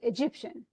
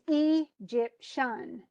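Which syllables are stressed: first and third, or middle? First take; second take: middle; first and third. First: The stress is on the middle syllable. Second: The stress is on the first and third syllables. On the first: The speaker calls it right. "the emphasis should be on the middle syllable" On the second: The speaker calls it wrong. "the first and third syllables"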